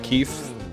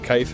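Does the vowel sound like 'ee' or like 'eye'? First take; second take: ee; eye. First: The vowel sounds like 'ee'. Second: The vowel sounds like 'eye'. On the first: The speaker calls it right. "I guess it's keef" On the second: The speaker calls it wrong. "My parents always said kife ... not the proper way to say it"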